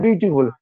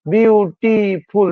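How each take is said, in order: First: Said in the usual way. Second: beautiful very slowly in three separate beats; syllable by syllable. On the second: Shown as a demonstration. Teacher counting syllables of beautiful for students, drawn out beat by beat. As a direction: sound out বিউ, টি, ফুল, one at a time. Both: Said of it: "দেখো তিনবার হচ্ছে".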